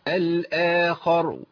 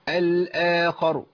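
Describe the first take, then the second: No difference in how they are said.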